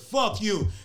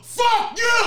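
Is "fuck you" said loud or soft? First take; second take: soft; loud. First: It is said more softly, with less force. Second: It is said loudly, with strong force. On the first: The speaker calls it wrong. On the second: The speaker calls it right.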